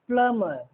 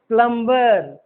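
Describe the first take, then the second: First: The b sound is left out of the word. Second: The b sound is pronounced in the word. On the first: The speaker calls it right. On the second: The speaker calls it wrong.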